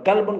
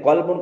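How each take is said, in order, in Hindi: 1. यह हल्की, पतली K की आवाज़ से शुरू होता है। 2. यह गहरी, भारी Q की आवाज़ से शुरू होता है। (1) "कल्बुन का माना कुत्ता" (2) "कल्बुन का माना दिल"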